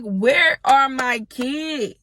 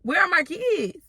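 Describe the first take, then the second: First: Drawn-out, dead slow demand; slow pleading question; slow frantic demand. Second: Pitched way higher, urgent; near-shriek of panic; high desperate repeat; frantic high demand. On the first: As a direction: drag each word out, desperate. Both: Retold or imitated. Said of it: "I'm like".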